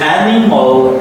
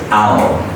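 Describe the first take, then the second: First: The middle vowel is said full and long. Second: The middle vowel is short and reduced. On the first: The speaker calls it wrong. "You don't need to say animal" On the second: The speaker calls it right. "I is reduced. It's a short sound here"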